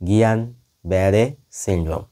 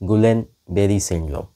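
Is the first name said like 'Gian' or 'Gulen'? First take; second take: Gian; Gulen. First: The name starts with a soft 'gi-yan' sound. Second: The name starts with a hard 'gu-len' sound. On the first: The speaker calls it right. "উচ্চারণটা হওয়া উচিত" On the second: The speaker calls it wrong. "Full form হলো"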